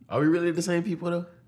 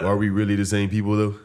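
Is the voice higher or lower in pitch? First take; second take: higher; lower. First: The voice is a little higher in pitch. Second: The voice is a little lower in pitch.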